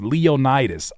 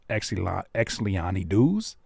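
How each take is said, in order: First: The name begins directly with an 'l' sound. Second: The name begins with a spoken 'ex' sound. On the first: The speaker calls it right. "the X is silent" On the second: The speaker calls it wrong. "I don't know how you pronounce that"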